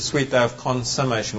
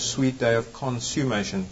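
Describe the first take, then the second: First: The word is built on the sound of 'consummate'. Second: The word is built on the sound of 'consume'. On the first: It means a marriage being completed. The speaker calls it right. "when a marriage is to be consummated" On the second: It means being burned up by fire. The speaker calls it wrong. "Consummation is to burn, when you are consumed by fire"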